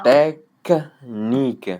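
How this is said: A pause splits the two middle consonants. The speaker calls it wrong. "Tu ne dois pas mettre une pause au milieu. Tu ne diras pas"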